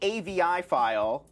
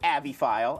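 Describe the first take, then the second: First: AVI is spelled out letter by letter. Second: AVI is pronounced as a single word.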